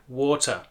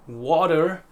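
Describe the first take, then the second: First: It has a British accent with an open final vowel. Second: It has an American accent with a clear final R.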